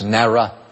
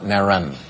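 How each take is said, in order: First: The syllable ends in a vowel, with no N. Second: The syllable ends with an added N sound. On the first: The speaker calls it right. "It's Nara" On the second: The speaker calls it wrong. "Not Naran, You added an N incorrectly"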